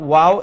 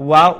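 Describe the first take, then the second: Both takes have the same delivery.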